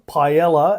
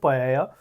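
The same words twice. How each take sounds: First: Paella is said in a common English-style way. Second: Paella is said in the Spanish-style way.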